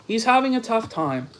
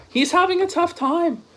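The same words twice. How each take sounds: First: Said in the usual way. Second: A pitched-up, mocking whisper; breathy fake sympathy, whispered. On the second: Shown as a demonstration. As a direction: whisper it like sarcastic pity. Mock pity for the rival.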